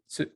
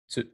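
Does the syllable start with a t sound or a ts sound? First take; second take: ts sound; ts sound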